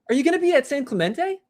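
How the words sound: It sounds supportive and encouraging.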